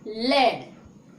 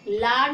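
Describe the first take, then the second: First: The vowel is a short front 'eh' sound. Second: The vowel is a long open 'ah' sound. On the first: The speaker calls it right. "ला के साथ में क्या बोलेंगे, ए करके" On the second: The speaker calls it wrong. "लाड नहीं पढ़ोगे"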